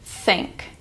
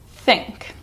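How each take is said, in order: First: "Think" breathed out with only air; voiceless airy "Think"; whispered th demo. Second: Normal spoken "Think"; voiced th demo. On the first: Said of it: "my tongue comes between my teeth". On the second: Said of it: "It's more just air movement". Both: Shown as a demonstration.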